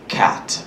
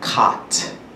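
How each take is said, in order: First: It is said in an American accent. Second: It is said in a Nigerian accent. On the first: "An American is gonna say cat" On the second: "A Nigerian is gonna say cat"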